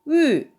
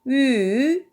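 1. 소리가 높은 데서 낮게 확 떨어져요. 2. 소리가 낮게 내려갔다가 다시 올라가요. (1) "사성" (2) "삼성"

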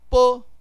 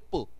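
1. 这个音节有完整的声调。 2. 这个音节又短又轻，不重读。

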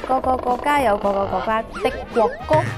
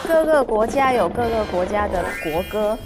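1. 这句话是用粤语说的。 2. 这句话是用普通话说的。

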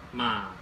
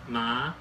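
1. 音高先降到低，再上升。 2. 音高从中到高上升。

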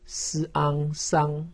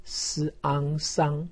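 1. 音高保持在高处，平平的。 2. 音高保持在高处，平平的。

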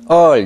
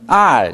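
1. 이 모음은 r 음색이 거의 없거나 전혀 없습니다. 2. 이 모음은 r 음색이 강합니다. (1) "이 발음을 대만에서는 얼 이렇게 발음합니다" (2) "대륙의 발음은 R 이렇게 발음합니다"

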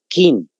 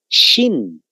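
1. Se lee con sonidos de letras españolas. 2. Se dice con sonidos chinos. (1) "no se pronuncia como en castellano pronunciamos nosotros" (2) "Su pronunciación en realidad es"

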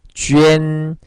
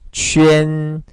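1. 입술을 둥글게 해서 'jwee-en'처럼 들려요. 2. 입술을 둥글게 해서 'jwee-en'처럼 들려요.

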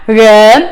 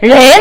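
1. 이 모음은 중립적인 'uh' 소리입니다. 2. 이 모음은 열린 'e' 소리입니다. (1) "렌이 아니라, 른" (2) "렌 아니에요. 렌이라고 발음하면 안 돼요"

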